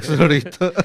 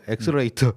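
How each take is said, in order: First: The 러 syllable is kept in the word. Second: The 러 syllable is dropped from the word. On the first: The speaker calls it right. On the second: The speaker calls it wrong.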